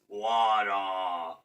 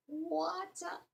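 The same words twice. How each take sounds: First: Lower, deeper giant take; lightly voiced giant saying water. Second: Very high, soft squeak; a tiny mocking peep; squeaky high water. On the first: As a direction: rumble it like a giant. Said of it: "that sounds more like a giant voice". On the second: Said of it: "more like a giant voice". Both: Shown as a demonstration.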